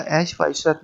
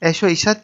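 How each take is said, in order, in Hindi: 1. 'o' को एक अलग शब्द की तरह बोला जाता है। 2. 'o' पहले शब्द से जुड़ा हुआ है। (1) "अलहदा नहीं पढ़ना चाहिए" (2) "पहले लफ्ज़ के साथ मिलाकर पढ़ा जाता है"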